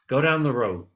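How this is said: The word road has an English-like pronunciation. The pronunciation would be understood outside the classroom. The speaker calls it right. "one student whose pronunciation was pretty good said"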